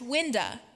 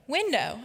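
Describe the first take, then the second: First: The word ends in a weak 'uh' vowel. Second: The word ends in a clear 'oh' vowel. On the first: "My dad, on the other hand, would tell you that it's pronounced winda" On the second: "that one seems pretty easy"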